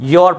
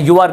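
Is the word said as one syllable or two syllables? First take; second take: one syllable; two syllables. First: It is said as one syllable, yor. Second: It is said as two syllables, you-ar. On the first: The speaker calls it right. "योर पढ़ना है" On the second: The speaker calls it wrong. "यू आर नहीं पढ़ना"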